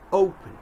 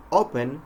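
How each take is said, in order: First: "open" with O gliding into a hidden W; American O sound. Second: "open" with a pure O and no W glide; mispronounced O. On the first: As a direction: round off the o of "open" into w, emphatically. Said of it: "we must say open". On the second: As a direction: say "open" with a short, unglided o. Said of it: "instead of saying open". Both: Shown as a demonstration.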